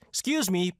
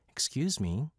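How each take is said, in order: First: It sounds polite, like asking to pass by. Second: It sounds flirtatious, like starting a conversation.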